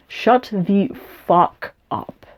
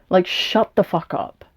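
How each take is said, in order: First: Slow, each word spaced out; slow emphatic repeat. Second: Said in the usual way. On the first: Real, not acted. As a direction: drag every word out, dead serious. Repeating insult, slowed for effect.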